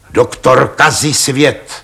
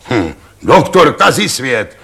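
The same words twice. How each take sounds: First: Slow repetition. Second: Mocking scoff. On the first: Acted. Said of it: "opakovali páni Radové". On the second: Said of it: "křičel řemenář".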